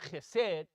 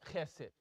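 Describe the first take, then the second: First: The stress is on the last syllable. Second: The stress is on the first syllable. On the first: The speaker calls it wrong. "it's not chesed" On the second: The speaker calls it right. "The first letter, the first syllable gets it"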